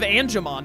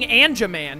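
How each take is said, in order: First: The last syllable sounds like 'mon'. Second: The last syllable sounds like 'man'. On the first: The speaker calls it right. "instead of Angemon" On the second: The speaker calls it wrong. "saying Anjaman instead of Angemon"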